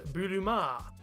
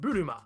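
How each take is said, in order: First: The final vowel is drawn out long. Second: The final vowel is short. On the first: "extend the final vowel sound so that it reads buruma" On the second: "kept it as a straight buruma"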